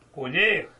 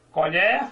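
First: Colher with closed ê, colhêr; noun colher. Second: Colher with open é, colhér; verb colher. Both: Shown as a demonstration. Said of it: "Veja, só mudou a pronúncia".

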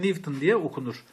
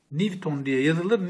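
First: "Newton" read aloud as "Niv-ton"; saying Newton. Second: "Newton" spelled out slowly as it is written; slowly stating how "Newton" is written; spelling of Newton. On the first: Teacher to class, showing how "Newton" is pronounced, "Nivton". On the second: Teacher to class, showing how "Newton" is written, slow. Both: Shown as a demonstration.

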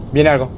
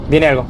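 Both takes have the same delivery.

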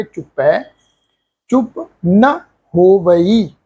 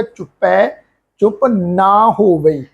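First: Slow recitation with ਨਾ cut to a short na; ਨਾ clipped short with no kanna; ਚੁੱਪ ਨਾ ਹੋਵਈ recited slowly with a short na; correct short vowel. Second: Slow recitation with ਨਾ said as a long naa; ਨਾ drawn out with the kanna, as many wrongly say it; ਨਾ ਹੋਵਈ recited slowly with a long aa; wrong long vowel. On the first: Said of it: "ਕੰਨੇ ਦੀ ਮਾਤਰਾ ਨਹੀਂ ਲਾਉਣੀ". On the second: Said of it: "ਨੰਨੇ ਨੂੰ ਕੰਨਾ ਲਗਾ ਕੇ ਉਚਾਰਨ ਕਰਦੇ ਆ". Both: Shown as a demonstration.

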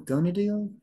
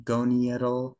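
First: "gonadial" said as go-NA-dial, rising like a question; corrected try, questioning. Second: "goniadal" said slowly, go-NI-a-dal, unsure; first try at the term. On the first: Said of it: "like, goniadal". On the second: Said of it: "go-, gonadial?". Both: Shown as a demonstration.

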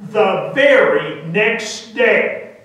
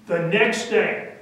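First: "very" drawn out and punched louder; slow right down and lean hard on "very"; stress on VERY. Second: Said in the usual way. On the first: A narrator's reading. Emphatic repeat adding very.

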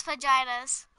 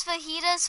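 First: Fajitas with the J sounded, "fa-JY-tas"; mom's mispronunciation. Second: Said in the usual way. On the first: Retold or imitated. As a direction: say "fajitas" as "fuh-JAI-duhz". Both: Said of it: "my mom calls fajitas fajitas".

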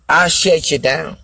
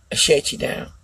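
First: Said in the usual way. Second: Soft unvoiced whisper of the boast. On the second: Shown as a demonstration. Boasting to viewers, whispered. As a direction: breathe it out in a whisper.

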